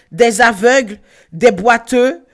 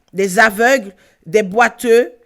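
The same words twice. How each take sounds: Both takes have the same delivery.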